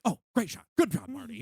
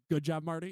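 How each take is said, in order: First: Higher, delighted pat on one's own back; mock self-praise. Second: Said in the usual way. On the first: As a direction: imitate Scorsese cheering himself on. Mimicking Scorsese praising his photos. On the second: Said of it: "he will literally say".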